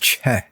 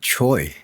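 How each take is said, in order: First: The name is said with an 'eh' vowel. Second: The name is said with an 'oy' vowel. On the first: The speaker calls it right. "It's Che" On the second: The speaker calls it wrong. "It's not Choi"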